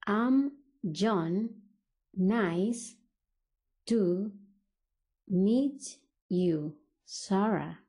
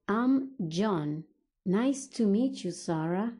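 First: Slow, with long gaps between words. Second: Said in the usual way. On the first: Shown as a demonstration. English teacher models John greeting Sarah, word by word. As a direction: break the phrase up for learners.

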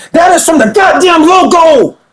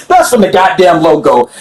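First: Hyped shout at the replay; excited shout. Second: Said in the usual way. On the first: Real, not acted. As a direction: yell it like you can't believe the shot. Disbelief at a logo three.

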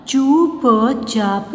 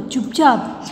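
First: चुपचाप very slow in separate pieces; syllable by syllable. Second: Said in the usual way. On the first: Shown as a demonstration. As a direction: sound out चुपचाप slowly. (चुपचाप को तोड़-तोड़ कर, धीरे) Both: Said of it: "sound pronounce करके देख लीजिए".

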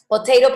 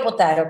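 First: "potato" with a middle AY, po-TAY-to; "potato" pronounced po-TAY-ro; American-style potato. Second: "potato" with a middle AH, po-TAH-to; "potato" pronounced po-TAH-ro; British-style potato. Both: Shown as a demonstration. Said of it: "su acento británico versus el acento norteamericano".

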